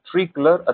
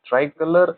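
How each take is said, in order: First: The first syllable sounds like tree. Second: The first syllable sounds like try. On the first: "ಟ್ರೀ colour ಅನ್ನೋದು U K ಅಲ್ಲಿ pronounce ಮಾಡಲಾಗುತ್ತೆ" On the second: "sorry U S A ನಲ್ಲಿ"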